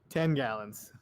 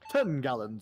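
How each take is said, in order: First: It is said in the speaker's ordinary accent. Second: It is said in a put-on British accent.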